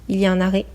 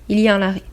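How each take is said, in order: The two takes are said the same way.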